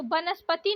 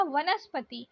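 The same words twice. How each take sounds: First: वनस्पति starting with b; wrong pronunciation. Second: वनस्पति starting with v; soft v opening वनस्पति; correct pronunciation. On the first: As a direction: say वनस्पति as "banaspati". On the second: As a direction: say वनस्पति as "vanaspati". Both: Shown as a demonstration. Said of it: "वनस्पति नहीं बोला जाता".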